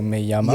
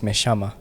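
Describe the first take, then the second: First: The double L sounds like a 'y'. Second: The double L sounds like 'sh'. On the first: This is how it is said in Spain. "every double L in Spain is Y" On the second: This is how it is said in Argentina. "But then in Argentina"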